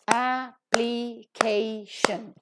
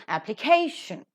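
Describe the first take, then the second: First: "application" very slowly in four pieces, a-pli-kay-shun; syllable by syllable. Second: "application" as one word, stressed on CA; stress before the suffix. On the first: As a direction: break "application" into separate drawn-out syllables. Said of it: "Four syllables are there". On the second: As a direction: punch the KAY in "application". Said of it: "that is to be given accent". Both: Shown as a demonstration.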